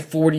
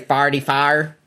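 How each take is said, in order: First: Forty-four is said with standard vowels. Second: Forty-four is said like farty-far. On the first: "you say 40" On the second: "that's a St. Louis thing"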